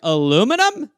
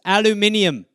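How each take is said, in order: First: It is said the American way, with four syllables. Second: It is said the British way, with five syllables. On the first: This is how the speaker himself says it. "I was like" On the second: This is how people in England say it. "Even pronunciations"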